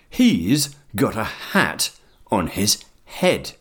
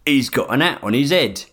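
First: The h in 'hat' is pronounced. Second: The h in 'hat' is dropped. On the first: The speaker sounds standard. The speaker calls it right. "instead of" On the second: The speaker sounds regional and lower class. The speaker calls it wrong. "you might hear some people saying"

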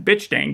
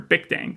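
First: The first word ends in a ch sound. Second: The first word ends in a k sound. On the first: The speaker calls it wrong. "I'm just reading it as Bitch Dang the entire time" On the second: The speaker calls it right. "But he pronounces it there"

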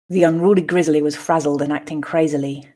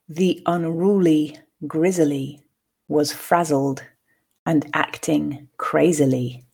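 First: The sentence is spoken at a natural pace. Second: The sentence is spoken slowly. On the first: "the second two at a more natural pace" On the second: "the first time slowly"

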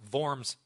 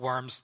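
First: The name is pronounced the German way. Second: The name is pronounced the English way. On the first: The speaker calls it right. "but it's German, so it's Worms" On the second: The speaker calls it wrong. "not Worms"

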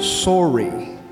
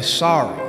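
First: It is said in a Canadian accent. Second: It is said in a Southern US accent. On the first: "Up here, we say it sorry" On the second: "down there, you say sorry, but you say it altogether differently. I don't hear the Y on the end of your word"

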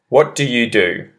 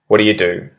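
First: Every word is said fully and separately. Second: The words are run together and reduced, quickly. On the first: "I say the proper English phrase" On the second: "I'll repeat the pronunciation shift one"

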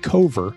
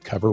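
First: It is pronounced differently from the word cover. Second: It is pronounced the same as the word cover. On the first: The speaker calls it wrong. "I think I was originally trying to pronounce it Cover" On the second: The speaker calls it right. "you pronounce it the same as the word cover"

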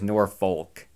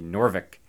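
First: The second syllable sounds like 'folk'. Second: The second syllable sounds like 'vik'. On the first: This follows the written spelling, which no local uses. The speaker calls it wrong. "Nobody says Norfolk. That's how it's actually spelled" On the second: This is how older locals say it. The speaker calls it right. "Some of the old timers say Norvik"

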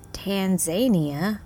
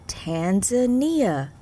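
First: The stress falls on a misplaced syllable. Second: The stress falls on the usual syllable. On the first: The speaker calls it wrong. "putting emphasis on the wrong syllable" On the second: The speaker calls it right. "later learn how it's really pronounced"

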